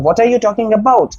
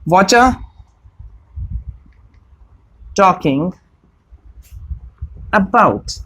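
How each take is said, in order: First: Each word of 'what are you' is said separately. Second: 'What are you' is blended into one word, 'whatcha'.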